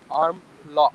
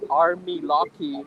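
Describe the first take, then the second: First: Said plainly, with no extra vowels added. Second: An extra 'ee' vowel follows each word.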